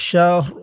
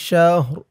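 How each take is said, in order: Both takes have the same delivery.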